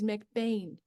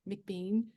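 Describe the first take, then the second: First: The last syllable rhymes with 'rain'. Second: The last syllable rhymes with 'seen'. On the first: The speaker calls it right. "it actually technically is McBain" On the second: The speaker calls it wrong. "a lot of people say Bean and McBean"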